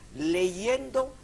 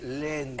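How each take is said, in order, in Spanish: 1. El sonido de la y entre vocales se pronuncia. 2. El sonido de la y entre vocales se omite. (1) "decimos leyendo" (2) "hay gente que le dice leendo"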